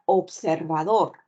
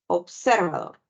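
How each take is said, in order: First: The stress falls on the last syllable. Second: The stress falls on a non-final syllable. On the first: The speaker calls it right. "El acento lo ubicas en la última sílaba" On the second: The speaker calls it wrong. "tampoco pronuncias observador"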